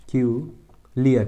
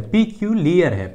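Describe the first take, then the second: First: पिक्यूलियर broken as "पी", "क्यू", "लियर" with pauses; slow, halting sounding-out of पिक्यूलियर; syllable by syllable. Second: Said in the usual way. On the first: Shown as a demonstration. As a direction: dictate पिक्यूलियर slowly in separate chunks. Teacher dictating syllables while writing.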